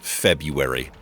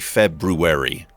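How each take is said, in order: First: The first R is left silent. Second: The first R is clearly pronounced. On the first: This is how most people say it. The speaker calls it wrong. "Every person I have ever known has says February" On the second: This is how it is supposed to be said. The speaker calls it right. "I don't think it's a silent R. I think you're you're supposed to say February"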